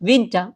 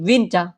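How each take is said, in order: Both takes have the same delivery.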